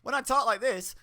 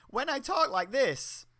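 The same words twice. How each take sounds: First: Higher, lifted untrustworthy tone; insincere high voice. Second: Much higher, slow, untrustworthy; insincere high voice. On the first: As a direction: sound like you can't be trusted. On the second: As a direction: go up high so nobody believes you. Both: Shown as a demonstration. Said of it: "you can't trust a damn thing I'm saying".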